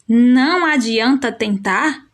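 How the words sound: It is said with a rising question tune. It asks whether trying is useless. "é uma pergunta"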